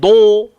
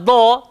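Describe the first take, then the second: First: The sound is made with rounded lips. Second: The sound is made without rounding the lips. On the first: The speaker calls it wrong. "jangan do" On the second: The speaker calls it right. "tak payah pakai bibir"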